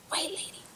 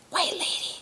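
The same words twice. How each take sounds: First: Hushed, high whisper; whispered aside. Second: Said in the usual way. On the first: Real, not acted. Storyteller quietly repeats who was waiting there, whispered.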